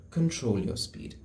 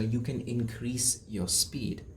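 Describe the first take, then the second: First: Said in the usual way. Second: Slow, soft and deliberate; slow demo. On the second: Shown as a demonstration. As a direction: drag each word out slowly.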